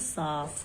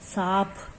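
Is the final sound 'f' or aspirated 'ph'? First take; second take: f; ph. First: The final sound is an 'f'. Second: The final sound is an aspirated 'ph'.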